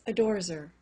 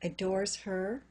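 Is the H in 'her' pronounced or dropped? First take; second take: dropped; pronounced. First: The H in 'her' is silent. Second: The H in 'her' is pronounced.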